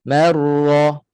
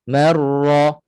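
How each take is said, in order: The two takes are said the same way.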